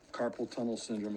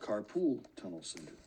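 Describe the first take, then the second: First: The first word sounds like 'carpal'. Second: The first word sounds like 'carpool'. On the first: The speaker calls it right. "Carpal tunnel syndrome is not" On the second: The speaker calls it wrong. "is not carpool tunnel syndrome"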